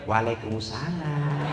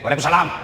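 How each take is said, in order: First: It is said in a soft, sweet voice. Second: It is said in a plain, firm voice.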